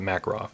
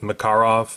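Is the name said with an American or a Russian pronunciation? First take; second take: American; Russian. First: The name is said with an American pronunciation. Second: The name is said with a Russian pronunciation. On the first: "we're going to be all American and call it" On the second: "the Russians pronounced it"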